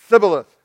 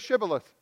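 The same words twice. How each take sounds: First: The word begins with a lisped th sound. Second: The word begins with a clear sh sound. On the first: The speaker calls it wrong. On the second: The speaker calls it right.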